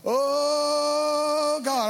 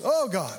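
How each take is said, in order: First: OH held very long on a high note, then GOD; exaggerated emphasis. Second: Short "Oh, God" with brief OH; varied repeated prayer. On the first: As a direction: draw "Oh" right out before "God". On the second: Retold or imitated. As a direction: say "Oh, God" briefly, without stretching "Oh". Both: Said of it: "put emphasis on different words".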